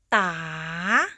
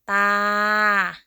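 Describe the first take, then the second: First: The pitch rises across the syllable. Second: The pitch stays level in the middle. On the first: "Rising tone" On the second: "Start with ta as a middle tone"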